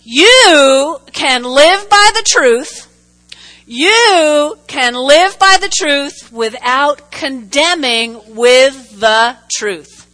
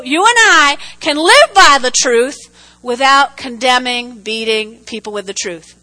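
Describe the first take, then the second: First: Slow, weighty, every word pressed; slow emphatic. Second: Said in the usual way. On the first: Shown as a demonstration. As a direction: lay it down slowly so they write it. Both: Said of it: "write this down".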